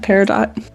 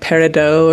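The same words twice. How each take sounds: First: It is said with a plain English pronunciation. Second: It is said with a put-on French pronunciation.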